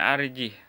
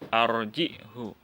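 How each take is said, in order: First: The word ends on a bare h sound. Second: The word ends with a short 'hu'. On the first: "Asalnya arjih" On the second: "dibaca dengan memberikan baris dhammah pada ha kinayahnya"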